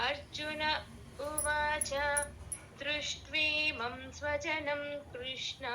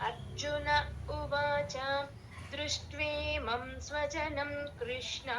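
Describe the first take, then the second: The two takes are said the same way.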